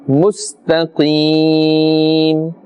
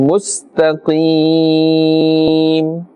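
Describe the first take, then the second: No difference in how they are said.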